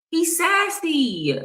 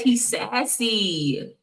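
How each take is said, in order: First: Much higher, slow, drawn-out sassy; slow, much higher sarcastic sing-song on sassy; sassy mock. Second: Said in the usual way. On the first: Shown as a demonstration. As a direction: camp it up with a long, high sneer on sassy. Mocking a man's look.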